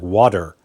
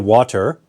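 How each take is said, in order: First: The middle consonant is a soft D sound. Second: The middle consonant is a clear T sound. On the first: "sometimes I say more of a D sound like water" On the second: "sometimes I say water"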